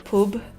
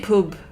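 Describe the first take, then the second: First: The vowel is given a regional accent. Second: The same.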